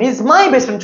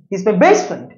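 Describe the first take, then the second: First: The stress falls on the word my. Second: The stress falls on the words best friend. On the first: He is mine, not yours. "He is not your best friend" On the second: He is a friend, not an enemy. "আমার শত্রু, ... সে আমার প্রিয় বন্ধু"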